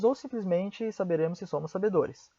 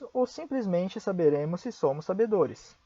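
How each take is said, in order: First: It is said at a faster pace. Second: It is said at a slower pace.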